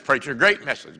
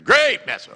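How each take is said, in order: First: Said in the usual way. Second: Louder, higher gushing praise; mock hearty shout. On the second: Churchgoer gushing at the preacher on the way out, loud. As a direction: belt it like an overeager fan at the door.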